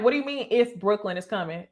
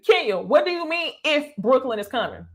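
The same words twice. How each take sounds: First: Said in the usual way. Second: Retold incredulous question with weight on "if"; pointed repeated question. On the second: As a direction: challenge her, punching the word "if".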